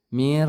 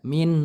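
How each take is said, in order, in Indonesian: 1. Bunyi n melebur ke dalam bunyi r setelahnya. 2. Bunyi n diucapkan dengan jelas sebagai n. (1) "suara nun sukunnya dimasukkan ke dalam huruf ro" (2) "jangan dibaca min"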